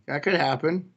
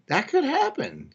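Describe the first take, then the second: First: Said in the usual way. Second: High pitch jump. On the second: Real, not acted. Repeating chat comment aloud.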